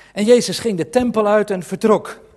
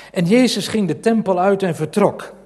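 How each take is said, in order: No difference in how they are said.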